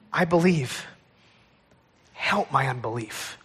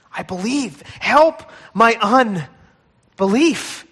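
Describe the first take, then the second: First: Low, soft, broken cry; exasperated cry. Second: Exasperated cry rising. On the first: Father confessing his doubt to Jesus, low broken cry. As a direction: whisper it like a broken man. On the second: Father pleading with Jesus, slow swelling cry. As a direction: let "Help" swell slowly into a plea. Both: Acted. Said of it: "with an exasperated cry".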